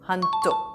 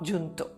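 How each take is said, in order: First: The word begins with an H sound. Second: The word begins with a J sound. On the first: The speaker calls it right. "J is pronounced as H. So, this is junto" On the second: The speaker calls it wrong. "not junto"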